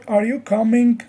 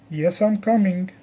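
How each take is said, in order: First: Coming lifted at the end; rising question. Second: Coming brought down at the end; statement tune settling downward on coming; falling statement. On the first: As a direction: ask it with the voice going up on coming. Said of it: "our voice usually goes up". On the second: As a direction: answer with the voice going down on coming. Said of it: "it usually goes down". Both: Shown as a demonstration.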